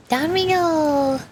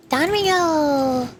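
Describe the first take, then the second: No difference in how they are said.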